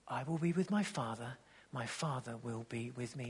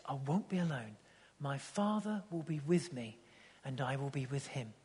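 First: Softer and lower, near a murmur; almost breathe the promise; hushed reverent quote. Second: Softer, reverent words of Jesus; hushed tender quote. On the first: Quoting Jesus, hushed and tender. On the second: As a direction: say it gently, like a confidence. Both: Retold or imitated.

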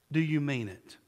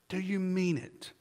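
First: Said in the usual way. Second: Softer and slower, pressing the question home; quiet, slow repeat. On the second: Real, not acted. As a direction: ask it again quietly, letting it sink in.

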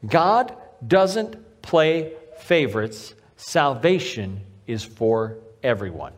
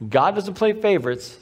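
First: Slow, each word of "God doesn't play favorites" set apart; "God doesn't play favorites" very slowly, with pauses between words; emphatic. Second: Said in the usual way. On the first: Real, not acted. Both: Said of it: "I cannot emphasize that to you enough".

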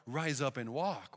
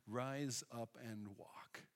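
First: Said in the usual way. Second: "Rise up and walk" said very softly and slowly, each word weighted; soft, slow command to the paralysed man; gentle command. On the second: Retold or imitated. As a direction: speak the healing command softly, drawn out.

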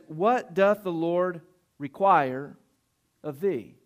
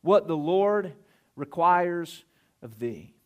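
First: "What doth the Lord require of thee?" read very slowly, leaning on "what"; slow emphatic quote. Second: "What the Lord requires of thee" said slowly, falling, as a statement; restated as a statement. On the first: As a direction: draw out "What" and let "thee" fall. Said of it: "The Bible says". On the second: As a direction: stretch out "requires" and settle down at the end. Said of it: "turn that around today and just consider this statement". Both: Shown as a demonstration.

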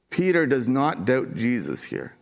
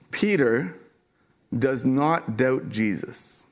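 First: Said in the usual way. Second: Slow, with the weight on "not" in "does not doubt Jesus"; slow and deliberate with "not" stressed. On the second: Shown as a demonstration.

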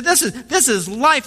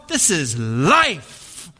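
First: "this is life" high with a rising lift; lightly imitated excited baker; fervent baker. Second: Very slow, hushed pronouncement of "this is life"; mild imitation of a fervent baker; solemn baker. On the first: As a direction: lift "this is life" up in eager awe. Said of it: "He said". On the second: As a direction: drag out "this is life" like a sacred truth. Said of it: "this soup Nazi".

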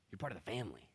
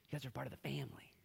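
First: Said in the usual way. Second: Fast, hushed whisper; intimate whisper. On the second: Acted. Jesus reminding the disciples they belong, whisper. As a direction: whisper it as a warm secret.

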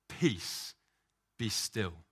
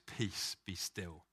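First: A firm, voiced peace, be still; lightly voiced Jesus commanding the storm. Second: Whispered peace, be still; whispered, calming the storm; hushed command. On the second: Acted. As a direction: breathe it out like a hush over the water. Jesus calms the storm, quoted.

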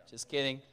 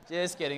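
First: Said in the usual way. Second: Chuckling through it; laughing it off. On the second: Real, not acted. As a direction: laugh while taking it back. But no, just kidding.

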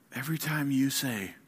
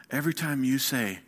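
The two takes are said the same way.

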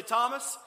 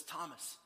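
First: Loud, high, rising call of the name; stern call. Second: Soft, falling call of the name; gentle call. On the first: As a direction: call him out sharply, voice raised. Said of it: "He didn't walk in the room and say". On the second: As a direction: say the name tenderly to a doubting friend. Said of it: "No, he walks over to Thomas and he says". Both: Acted.

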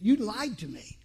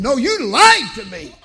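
First: Said in the usual way. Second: Louder, slow, stressing lied; raised retold rebuke. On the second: Father repeating to son, louder rebuke. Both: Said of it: "as if he didn't hear me".

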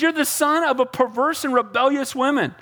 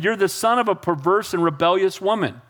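First: High-pitched mock scolding; mildly acted anger. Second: Said in the usual way. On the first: Saul mad at his son Jonathan, mock angry. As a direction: scold with a touch of heat. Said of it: "he's getting mad at his son". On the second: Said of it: "this is what he says".

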